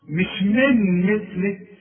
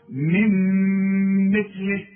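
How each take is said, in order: First: On من مثله, a clear n before the m, louder; من said with a distinct noon; wrong separate noon. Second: Sung, on من مثله, the noon melts into a held m; sung, من مثله with a nasal ghunna; merged with nasal hum. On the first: Retold or imitated. Teacher warns against the wrong من مثله. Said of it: "اوعى بقى تستعمل لسانك". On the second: Shown as a demonstration. Sung, teacher shows the correct من مثله. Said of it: "الإدغام بغنة".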